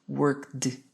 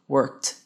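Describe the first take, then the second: First: The ending is an extra syllable with d. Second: The ending is a single t sound. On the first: The speaker calls it wrong. "eu não falei worked" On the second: The speaker calls it right. "você não pronuncia o E e você tem um T"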